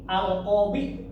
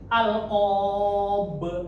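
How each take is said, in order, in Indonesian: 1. Kata ini diakhiri dengan vokal i pendek. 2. Kata ini diakhiri konsonan, tidak ada vokal di akhir. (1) "kalau dilanjutin jadi"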